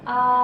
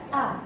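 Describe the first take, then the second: First: The pitch stays level throughout. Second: The pitch drops sharply and abruptly. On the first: "nada datar" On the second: "nada yang agak nyentak sih"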